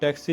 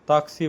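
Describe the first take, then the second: First: It is said with an English-style 'a' vowel. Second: It is said with an Italian-style open 'a' vowel. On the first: This is how people back home say it. The speaker calls it wrong. "जो हम टैक्सी बोलते हैं उसको यहाँ टैक्सी नहीं बोला जाता" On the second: This is how people here say it. The speaker calls it right. "ताक्सी बोला जाता है"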